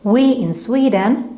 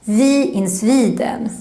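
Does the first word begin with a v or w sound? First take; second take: w; v. First: The first word begins with a w sound. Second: The first word begins with a v sound. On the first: The speaker calls it right. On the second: The speaker calls it wrong. "pronounce it more like a v"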